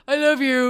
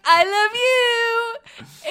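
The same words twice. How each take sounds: First: Put-on goofy kid voice. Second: Drawn-out, teary and high, very slow; overcome with emotion. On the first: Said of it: "he has a goofy, deep voice". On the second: Retold or imitated. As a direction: melt as if about to cry with joy. Mom moved by toddler's words.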